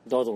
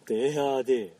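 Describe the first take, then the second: First: The name is said as one short word. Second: The name is said as French letter names. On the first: The speaker calls it wrong. "ダードって読むのか合ってるのか分かんないけど" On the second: The speaker calls it right. "発音はデアーデー"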